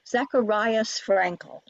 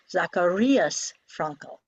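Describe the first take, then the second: First: The vowel in Zacharias sounds like 'eye'. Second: The vowel in Zacharias sounds like 'ee'. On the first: The speaker calls it wrong. "You may hear Americans say" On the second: The speaker calls it right. "The long I in German is like E in meat"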